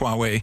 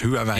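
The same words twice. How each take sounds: First: The name is pronounced the Chinese way. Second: The name is pronounced the Dutch way. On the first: "op je Chinees zeg je Huawei" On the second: "ik zal het maar op zijn Nederlands uitspreken"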